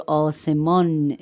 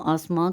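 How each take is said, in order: First: آسمان as "aw-se-mawn", final n fully sounded; Persian full n. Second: آسمان as Urdu "aas-maan", final n only nasalized; nasal n ending. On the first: Teacher contrasts Persian with Urdu sky, full n pronunciation. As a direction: land a clear n at the end of آسمان. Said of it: "فارسی میں نون غنہ نہیں ہے". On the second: Teacher gives the Urdu version, nasalized ending. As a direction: nasalize the end of آسمان, no full n. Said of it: "نون غنہ کے ساتھ". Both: Shown as a demonstration.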